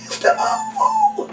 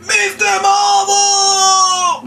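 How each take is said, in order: First: Very high, softer, slow little squeak; mocking a shy child's little shout; tiny squeaky voice. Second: Much higher, drawn-out shouted name; showing how the birthday boy should shout it; big slow shout. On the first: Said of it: "you're very funny when you get a little one". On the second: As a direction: bellow the name slowly like a big kid. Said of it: "Put it down to him". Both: Shown as a demonstration.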